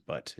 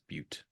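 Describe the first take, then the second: First: The word rhymes with 'cut'. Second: The word does not rhyme with 'cut'.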